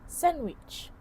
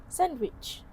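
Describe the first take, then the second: The two takes are said the same way.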